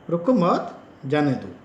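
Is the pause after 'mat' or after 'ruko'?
after mat. The pause falls after the word 'mat'. Do not stop him; let him go. "उसको मत रोकना है, उसको जाने देना।"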